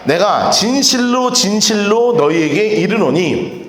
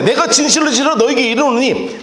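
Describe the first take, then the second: First: Slow scripture reading. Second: Said in the usual way. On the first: Shown as a demonstration. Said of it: "우리 같이 한번 읽읍시다". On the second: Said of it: "자, 보세요".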